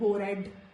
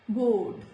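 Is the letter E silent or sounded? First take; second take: sounded; silent. First: The E is sounded as an extra syllable. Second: The E is silent, one syllable only. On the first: The speaker calls it wrong. "It is not bored" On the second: The speaker calls it right. "it is bored"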